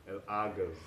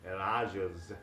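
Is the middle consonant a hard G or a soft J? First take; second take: hard G; soft J. First: The middle consonant is a hard G sound. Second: The middle consonant is a soft J sound. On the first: This is the Egyptian dialect form. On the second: This is the general Arabic form.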